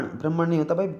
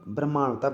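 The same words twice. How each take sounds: First: ब्राह्मण with short vowels, "bram-man"; wrong pronunciation. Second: ब्रह्मांड with long "maan"; correct pronunciation. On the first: Teacher shows students the error, mispronounced. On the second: Teacher corrects it for students, careful pronunciation. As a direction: stretch the "maa" in ब्रह्मांड. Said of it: "माँ का sound आएगा". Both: Shown as a demonstration.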